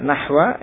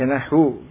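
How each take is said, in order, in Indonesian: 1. Kata itu berakhir dengan vokal 'a'. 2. Kata itu berakhir dengan vokal 'u'. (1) "Bisa dibaca nahwa" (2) "bisa dibaca nahu"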